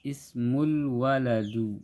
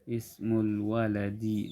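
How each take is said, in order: First: The last word ends with an -u vowel. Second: The last word ends with an -i vowel. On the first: The speaker calls it wrong. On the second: The speaker calls it right.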